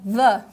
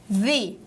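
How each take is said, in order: First: The vowel is short and neutral, like 'thuh'. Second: The vowel is long and bright, like 'thee'. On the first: The speaker calls it wrong. "eu já não vou falar the" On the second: The speaker calls it right. "mas sim the"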